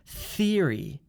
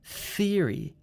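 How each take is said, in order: First: The word begins with a th sound. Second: The word begins with a th sound.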